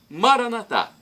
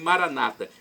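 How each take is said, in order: First: The stress is on the last syllable. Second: The stress is on the second-to-last syllable. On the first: This is how Catholics say it. "Nós católicos colocamos a tônica na última sílaba" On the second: This is how Protestants say it. "com a tônica na penúltima sílaba"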